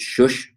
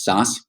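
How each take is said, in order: First: The name is said in the Eastern European way. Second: The name is said in the anglicized family way. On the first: This is how it should be said in its origin region. "the way it probably should be pronounced" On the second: This is how the family says it. "The way my family pronounces it"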